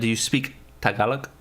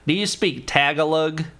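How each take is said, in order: First: Tagalog is said without an American accent. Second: Tagalog is said with an American accent.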